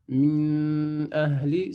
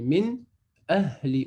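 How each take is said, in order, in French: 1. Le son n se fond dans le mot suivant. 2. Le son n est prononcé en entier et clairement. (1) "c'est faux" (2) "On dit min ahli"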